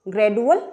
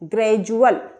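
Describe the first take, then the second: First: The middle consonant is a plain 'd' sound. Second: The middle consonant is a 'j' sound. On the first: The speaker calls it wrong. "ग्रेडुअल गलत हो जाएगा" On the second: The speaker calls it right. "सही उच्चारण क्या होगा"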